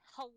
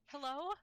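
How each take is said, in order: First: The voice sounds disgusted and unenthusiastic. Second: The voice sounds excited and eager. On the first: The speaker calls it wrong. "I sound disgusting?" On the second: The speaker calls it right. "so actually sound excited"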